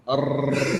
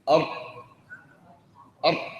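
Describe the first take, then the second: First: The r is trilled with several taps. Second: The r is fully stopped with no airflow. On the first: "فيرتعد لسانه نتيجة هذا الهواء" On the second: "يرفع اللسان ثم يغلق المخرج تماما، فتنحبس الراء"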